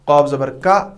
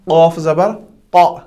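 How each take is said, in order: First: It is said with a light, open sound. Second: It is said with a heavy, rounded sound. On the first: The speaker calls it wrong. "इन दो हरूफों में भी हम बहुत गलती करते हैं। हम पढ़ते हैं" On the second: The speaker calls it right. "कौफ हैवी साउंड में आता है, तो कौफ का मुंह गोल करना है"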